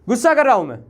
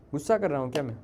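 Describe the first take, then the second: First: Loud, high angry yell; raised voice, pitch falling sharply; angry outburst. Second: Low, subdued question; hushed, low-pitched check; quiet questioning. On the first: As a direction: burst out angrily at the class. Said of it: "मुझे थोड़ा गुस्सा आ गया". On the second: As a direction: ask it softly, under control. Teacher asks if he is angry. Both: Real, not acted.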